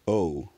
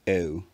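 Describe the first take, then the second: First: The vowel starts with the tongue far back. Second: The vowel starts with the tongue further forward. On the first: This is the older pronunciation. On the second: This is the modern pronunciation.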